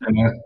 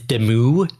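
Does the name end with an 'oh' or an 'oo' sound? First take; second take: oh; oo. First: The name ends with an 'oh' vowel. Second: The name ends with an 'oo' vowel. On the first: This is the form commonly used in practice. "but it's Demo. I say Demo" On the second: This is the technically correct French form. "technically the French pronunciation is Demu"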